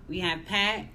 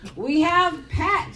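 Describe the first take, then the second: First: The name is said plainly, with little energy. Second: The name is said with extra energy and emphasis. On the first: The speaker calls it wrong. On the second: The speaker calls it right.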